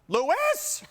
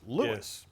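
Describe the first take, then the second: First: It is said sharply, with the stress shifted. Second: It is said calmly, stressing the first syllable.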